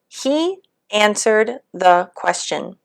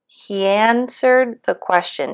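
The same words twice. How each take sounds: First: There is a break between he and answered. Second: He and answered run together without a break. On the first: The speaker calls it wrong. "pausing or not linking" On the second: The speaker calls it right.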